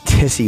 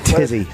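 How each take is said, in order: First: The middle consonant is a hissing s sound. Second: The middle consonant is a buzzing z sound. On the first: The speaker calls it wrong. "not a tissy, you dope" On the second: The speaker calls it right. "It's tizzy"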